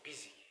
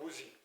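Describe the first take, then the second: First: The first vowel is a short 'i' sound. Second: The first vowel follows the spelling 'u'. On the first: The speaker calls it right. "it's busy" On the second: The speaker calls it wrong. "if you want to pronounce it without knowledge"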